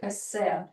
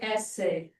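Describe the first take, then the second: First: The word has a Russian-style pronunciation. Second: The word has an English-style pronunciation. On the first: The speaker calls it wrong. "we don't say essay. It's Russian" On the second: The speaker calls it right. "We say essay"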